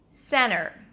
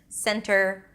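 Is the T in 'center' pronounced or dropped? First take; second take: dropped; pronounced. First: The T after the N is dropped. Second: The T after the N is pronounced.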